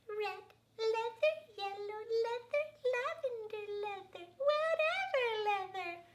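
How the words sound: It is said in a high baby voice.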